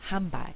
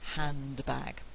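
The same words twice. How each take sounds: First: The D is dropped and the N becomes M. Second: The D is pronounced and the N stays clear. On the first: "bilabial assimilation" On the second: "instead of"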